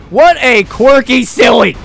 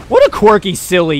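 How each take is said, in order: First: "What a quirky silly" higher and drawn out; slow, raised emphasis on "quirky silly"; emphatic repeat. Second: Said in the usual way. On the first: Real, not acted. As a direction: punch out "quirky silly" word by word, slowly. Repeats the remark with more force.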